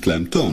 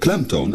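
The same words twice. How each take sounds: First: The stress is on the second syllable. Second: The stress is on the first syllable. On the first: The speaker calls it wrong. "en niet klemtoon" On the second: The speaker calls it right. "is natuurlijk klemtoon"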